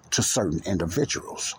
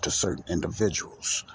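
First: Said in the usual way. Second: Measured stress on "certain individuals"; deliberate emphasis. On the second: Shown as a demonstration. Host qualifying the term's use, deliberate emphasis on "certain individuals". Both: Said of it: "Let me put an emphasis on that".

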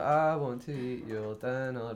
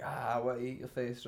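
First: Slow, drawn-out mock band vocal; tamed song lyric. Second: Lightly mimicked heavy song lyric; dead heavy band vocal. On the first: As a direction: stretch out the toned-down lyric, slightly louder. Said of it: "maybe if you say, like". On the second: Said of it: "like, dead heavy".

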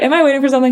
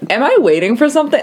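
First: High-pitched, innocent question; not rude. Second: Quick, high-pitched rude imitation. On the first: Retold or imitated. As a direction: imitate simply asking, no rudeness. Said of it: "You didn't say it rudely". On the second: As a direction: imitate an impatient, rude question. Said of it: "that sounded really rude".

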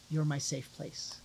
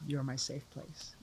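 First: Tender quote. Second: Softer tender echo. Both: Retold or imitated. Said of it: "She says".

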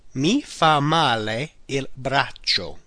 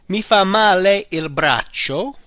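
First: Slow, deliberate repeat. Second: Slow, careful model phrase. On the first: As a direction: repeat it slowly for learners. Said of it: "The arm does me bad". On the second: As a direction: lay it out for learners. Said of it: "All right?". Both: Shown as a demonstration.

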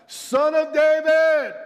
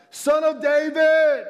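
First: Long, high, loud cry for help; shouting. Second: High, drawn-out, full-voiced shout; shouting louder. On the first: Acted. Blind beggar calling to Jesus, shouting. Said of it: "he began to shout". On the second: Beggar refusing to be hushed by crowd, shouting louder. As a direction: belt it out slowly, high and loud. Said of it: "but he only shouted louder".

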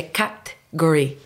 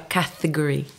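First: Category said the English way, kat-gory with the middle vowel swallowed; category corrected, slow, kat-gory; correct pronunciation. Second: Category with every syllable spelled out, ka-te-go-ri; category as a learner's mistake, full ka-te-go-ri; wrong pronunciation. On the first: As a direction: say category slowly and carefully like a native. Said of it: "E na verdade é category". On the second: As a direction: say category the Brazilian way, all four vowels. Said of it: "eu falava category". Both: Shown as a demonstration.

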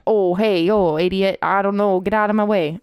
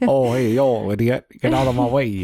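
First: Half-hearted Boston bartender; lightly faked Boston accent, close to your own voice; attempted Boston accent. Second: Mock Boston accent, punched up; mimicked bad Boston accent. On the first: Shown as a demonstration. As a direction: have an unsure go at a Boston accent. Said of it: "Let's hear your Boston accent". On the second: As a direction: parrot a friend's poor Boston accent with gusto. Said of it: "I can't do a Boston accent".

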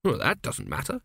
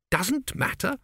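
First: Said in the usual way. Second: Sharp high disbelieving echo; incredulous. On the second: A narrator's reading. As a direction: throw the words back, stunned. Tepic echoes in disbelief.

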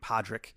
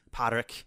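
First: Said in the usual way. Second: "Padraig" said with a thick Irish accent. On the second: Shown as a demonstration. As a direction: give "Padraig" a heavy Irish lilt. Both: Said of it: "if you pronounce it with a thick Irish accent".

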